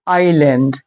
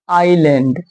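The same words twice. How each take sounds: The two takes are said the same way.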